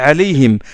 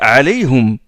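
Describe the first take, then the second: First: The word ends with a vowel other than u. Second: The word ends with the syllable hum. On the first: It mixes two different readings. The speaker calls it wrong. "J'ai pas dit عليهم" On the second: It follows the single reading being recited. The speaker calls it right. "j'ai prononcé juste après عليهم"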